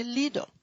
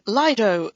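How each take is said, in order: First: Lido said the Italian way, LEE-doh; Italian pronunciation. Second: Said in the usual way. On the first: Shown as a demonstration. Newsreader offering the Italians' name for the pool, Lido pronounced LEE-doh. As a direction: say Lido with an "ee" in the first syllable, softly. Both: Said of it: "or as the Italians say".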